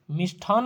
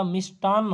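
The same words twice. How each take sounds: First: मिष्ठान said with aspirated ठ, "mishthaan"; मिष्ठान with a breathy th sound and a long final n; wrong form marked. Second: मिष्टान said with plain unaspirated ट, "mishtaan"; मिष्टान slowly, crisp t with no breath after it; correct form shown. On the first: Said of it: "नहीं होता". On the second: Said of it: "होता है". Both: Shown as a demonstration.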